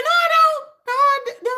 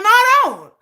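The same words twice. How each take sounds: First: "No, I don't" much higher and louder, near a yell; shrill loud refusal. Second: "No, I don't" higher and louder, firm; loud refusal. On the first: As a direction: push it up to an exasperated squeal. Refusing again, escalating. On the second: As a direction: snap back firmly. Refusing to understand fans. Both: Real, not acted.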